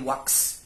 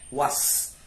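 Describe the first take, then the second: First: The word ends with a ks sound. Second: The word ends with an s sound. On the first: The speaker calls it wrong. "hindi wax" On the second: The speaker calls it right. "yung tamang pagbigkas"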